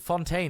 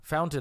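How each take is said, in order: First: The word is said like French 'fontaine'. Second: The word is said like English 'fountain'. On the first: The speaker calls it wrong. "I said fontaine" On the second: The speaker calls it right. "that's how you say it"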